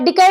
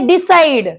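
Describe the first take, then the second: First: The middle consonant is a k sound. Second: The middle consonant is an s sound. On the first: The speaker calls it wrong. "डिकाइड झाला का?" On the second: The speaker calls it right. "नंतर पुढचा शब्द आहे डिसाइड"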